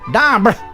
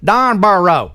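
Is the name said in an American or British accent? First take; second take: British; American. First: The name is said the British way. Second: The name is said the American way.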